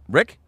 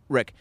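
First: The voice rises at the end. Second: The voice falls at the end.

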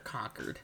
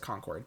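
First: It is said the New Hampshire way, like 'conquered'. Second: It is said the common way, like 'Concord grapes'.

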